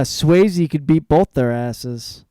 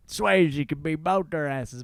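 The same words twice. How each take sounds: First: Loud, slow, emphatic quote; reading out a comment. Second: Slow, jokey mock fan; ironic head voice. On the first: Retold or imitated. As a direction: announce it loudly and stretch it out. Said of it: "And someone commented". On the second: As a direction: drawl it as an ironic imitation. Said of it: "using the voice in their heads".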